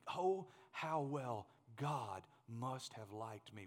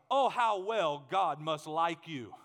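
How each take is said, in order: First: Low, soft and very slow; hushed reverence. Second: Loud, slow, ringing psalm line; emphatic proclamation. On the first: Preacher wishing this said of him, hushed and slow. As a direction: say it softly, word by word. Wishes it said of himself. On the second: Preacher wanting to be the psalmist's man, loud proclamation. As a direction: declare it slowly at full voice. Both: Real, not acted.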